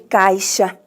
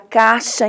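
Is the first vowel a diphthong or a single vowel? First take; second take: diphthong; single vowel. First: The first vowel is a diphthong, ai. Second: The first vowel is a single a. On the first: This is how it is written. "em vez de caixa" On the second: This is how people say it in everyday speech. "Você fala caixa"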